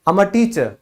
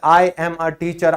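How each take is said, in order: First: 'I am' is shortened into one syllable. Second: 'I am' is said as two full words. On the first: The speaker calls it right. "आप सीधा बोलो" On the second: The speaker calls it wrong. "आप कभी भी ये मत बोलो"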